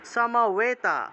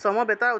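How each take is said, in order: First: The middle consonant is a w sound. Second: The middle consonant is a plain b sound. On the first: The speaker calls it right. "এই বটা হলো অন্তস্থ ব" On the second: The speaker calls it wrong. "সমবেতা উচ্চারণ না করে"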